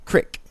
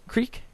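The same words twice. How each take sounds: First: "Creek" said as "crick", short i; dialect pronunciation. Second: "Creek" with a long ee, questioning; standard pronunciation. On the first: Reader trying out a word from the report, said "crick". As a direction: say "Creek" to rhyme with "trick". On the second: Reader checking a word from the report, long-ee pronunciation. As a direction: say "Creek" to rhyme with "seek", asking. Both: Shown as a demonstration. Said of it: "fallen into the creek".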